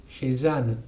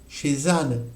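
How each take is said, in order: The two takes are said the same way.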